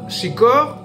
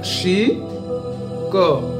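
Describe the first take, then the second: First: The two syllables run together without a break. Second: The two syllables are separated by a break. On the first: "c'est tout attaché" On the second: "c'est-à-dire c'est séparé"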